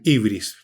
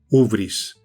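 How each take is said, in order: First: The word begins with an 'ee' vowel. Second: The word begins with an 'oo' vowel. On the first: "otros dicen ibris" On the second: "creo que es ubris"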